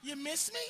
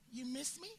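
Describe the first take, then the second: First: Pushy repeated question. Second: Soft needy woman. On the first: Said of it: "then you wait for us to answer". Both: Retold or imitated.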